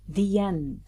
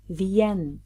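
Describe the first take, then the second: Both takes have the same delivery.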